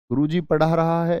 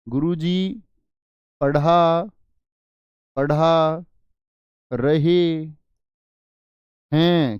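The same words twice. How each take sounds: First: Said in the usual way. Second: गुरुजी पढ़ा रहे हैं said word by word, रहे हैं louder; slow, stressed plural. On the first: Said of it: "ऐसे इस्तेमाल करोगे क्या?". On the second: Shown as a demonstration. Teacher correcting class, stressing रहे हैं slowly. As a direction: drag out पढ़ा रहे हैं with a loud pause between words. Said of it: "क्या बोलोगे?".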